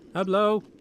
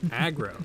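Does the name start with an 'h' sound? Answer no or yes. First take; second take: yes; no. First: It is said as 'Hablo', starting with an h. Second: It is said as 'Aggro', with a hard g. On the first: This is how the game character voices the name. "it sounds more like he says like Hablo" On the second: This is the English form of the name. "That's how you say it in English"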